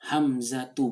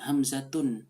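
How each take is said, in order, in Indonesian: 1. Nama ini berakhir pada vokal, tanpa n. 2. Nama ini berakhir dengan bunyi n tambahan.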